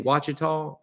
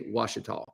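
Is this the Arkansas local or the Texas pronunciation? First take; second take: Texas; Arkansas local. First: It is pronounced the way people in Texas say it. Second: It is pronounced the way Arkansas locals say it. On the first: The speaker calls it wrong. "I think people in Texas or something say Ouachita" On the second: The speaker calls it right. "there in Arkansas, they say Ouachita"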